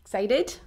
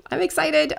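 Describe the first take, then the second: First: Said in the usual way. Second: "excited" lifted high and bright. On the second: Real, not acted. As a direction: burst out with real excitement.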